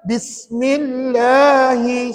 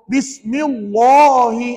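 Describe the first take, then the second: First: The L sound is light and clear. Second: The L sound is heavy and dark. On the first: The speaker calls it right. "Kalau nipis macam mana bunyinya?" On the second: The speaker calls it wrong. "itu tebal"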